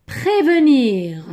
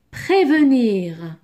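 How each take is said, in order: Both takes have the same delivery.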